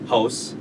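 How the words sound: It is said with a Canadian accent. "originally, growing up in Canada"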